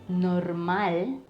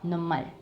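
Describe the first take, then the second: First: The r before the m is clearly pronounced. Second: The r is dropped and the m is doubled. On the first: "instead of normal" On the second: "we drop off the letter ere and double the next consonant"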